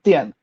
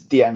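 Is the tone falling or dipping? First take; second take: falling; dipping. First: The syllable has a sharp falling tone. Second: The syllable has a low dipping tone. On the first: "this is fourth tone" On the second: "点 has a third tone"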